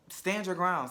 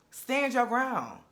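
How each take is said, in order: First: Said in the usual way. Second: Each word dragged out slow and higher, pressing hard on your; drawn out, higher and louder coaching push; slow emphatic urging. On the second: Real, not acted. Urging the cast member to hold firm, slow and emphatic. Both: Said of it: "you have to get away from that".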